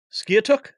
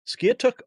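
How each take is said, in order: First: "Skiatook?" tried out hesitantly with a rising question tune; unsure pronunciation. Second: "Skiatook" sounded out again, a little higher and still rising; second try at pronouncing. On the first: Host reading a viewer's town, unsure of the name. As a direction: sound out "Skiatook" like a guess. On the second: Host retrying a viewer's town name, tentative. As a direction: have another go at "Skiatook", still unsure. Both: Real, not acted. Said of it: "oh boy, how do I say this?".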